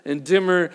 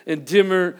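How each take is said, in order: Both takes have the same delivery.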